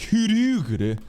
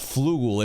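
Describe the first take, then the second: First: The name is said with Japanese sounds. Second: The name is said with English sounds. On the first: The speaker calls it right. "in accordance with the Japanese pronunciations" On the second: The speaker calls it wrong. "so it's not Flugel"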